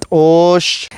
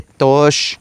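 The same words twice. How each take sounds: First: «tosh» with a glottalized t, the sound cut off; «tosh» with a glottal catch on the t, said slowly; correct Maya pronunciation. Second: «tosh» said slowly as the wrong version; incorrect pronunciation. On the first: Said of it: "se dice tosh". («tosh» con t glotalizada, forma correcta) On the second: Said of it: "No se dice tosh, se dice tosh". («tosh» con t simple, forma incorrecta) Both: Shown as a demonstration.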